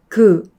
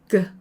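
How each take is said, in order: First: The sound is said forcefully and strongly. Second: The sound is said softly and weakly. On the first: "강하게 하면" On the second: "약하게 하면"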